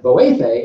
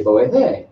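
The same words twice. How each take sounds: First: Boefe stressed on its middle syllable; stress inside boefe. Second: Boefe with weight on its last syllable; stress ending boefe. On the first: Teacher gives the right call for help, middle-stressed boefe. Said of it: "is what you wanna say". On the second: Teacher warns of the wrong call, end-stressed boefe. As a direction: push the final syllable of boefe. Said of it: "You don't wanna say". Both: Shown as a demonstration.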